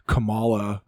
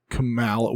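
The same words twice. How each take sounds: First: Kamala said kuh-MAH-luh with a broad ah; Kamala with the middle syllable like father, kuh-MAH-luh; trying a pronunciation. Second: Kamala said kuh-MAL-uh with a flat a as in cat; Kamala with the middle syllable like pal, kuh-MAL-uh; second pronunciation try. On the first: Podcaster unsure how to say the vice president's name, trying one version. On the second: Podcaster trying the vice president's name a second way, mildly dismissive. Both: Shown as a demonstration. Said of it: "what, what, however you're".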